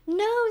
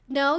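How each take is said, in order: First: It is said in a light, teasing tone. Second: It is said in a firm, serious tone. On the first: The protest is part of the game. "that kind of playful" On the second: The person really wants it to stop. "that's a little bit different"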